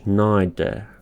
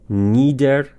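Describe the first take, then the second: First: The first vowel sounds like 'eye', British style. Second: The first vowel sounds like 'ee', American style. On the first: "تلفظ یوکی یا بریتیش نایدر" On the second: "تلفظ یو اس"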